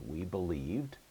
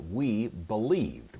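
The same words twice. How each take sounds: First: Said in the usual way. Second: Slow, deliberate translation; slow gloss. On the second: Shown as a demonstration. Teacher to class, slowly giving the translation. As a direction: spell out the meaning slowly for students. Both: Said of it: "The first person plural ending is going to make it".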